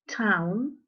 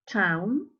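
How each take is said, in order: Both takes have the same delivery.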